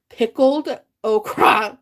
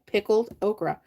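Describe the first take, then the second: First: "pickled okra" said slowly, syllable by syllable, /pʰɪkəld oʊkɹɑ/; careful pronunciation. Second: Said in the usual way. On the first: Shown as a demonstration. Host finally getting the tricky words out, slow careful pronunciation. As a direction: sound out "pickled okra" carefully after stumbling on it. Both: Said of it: "that's hard to say".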